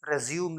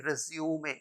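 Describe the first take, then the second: First: Resume said "re-ZYOOM", no final vowel; wrong pronunciation. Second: Resume said "REZ-yoo-may"; correct pronunciation. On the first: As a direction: close resume on M. (resume का गलत उच्चारण "रिज़्यूम") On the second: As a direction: end resume on an open "may". (resume का उच्चारण "रेज़्यूमे") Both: Shown as a demonstration. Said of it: "resume नहीं".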